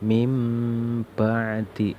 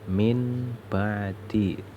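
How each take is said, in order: First: The first word ends with a nasal m sound. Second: The first word ends with a clear n sound. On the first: The speaker calls it right. "Bacanya harus mim ba'di" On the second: The speaker calls it wrong. "Ini tulisannya min ba'di"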